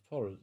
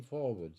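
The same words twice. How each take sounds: First: "Forward" echoed as "forrard"; puzzled echo of "Forward" pronounced FORR-ud; nautical forrard. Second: Said in the usual way. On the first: Retold or imitated. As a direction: say "Forward" without the w, as FORRUD. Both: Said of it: "Oh, you mean forward".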